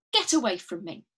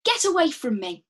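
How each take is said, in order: First: Said in the usual way. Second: Higher and louder, pushing away; loud get away. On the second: Shown as a demonstration. Teacher modelling a line for students, loud and urgent. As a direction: shout it to drive them off. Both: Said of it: "maybe say it back to me".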